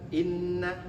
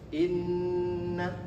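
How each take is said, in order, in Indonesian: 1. Bunyi sengau 'nn' dipotong pendek. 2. Bunyi sengau 'nn' ditahan panjang. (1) "bukan inna. Jangan selonong boy" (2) "Harus ditahan dulu ya"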